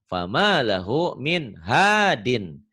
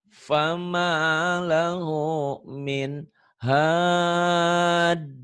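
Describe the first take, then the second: First: The last word ends with a full -in sound. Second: The last word stops short on a bouncing d. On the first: The words are read exactly as written, without stopping. The speaker calls it wrong. "kalau dibaca apa adanya" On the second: The reading stops at the end of the verse. The speaker calls it right. "Kalau di- dihentikan"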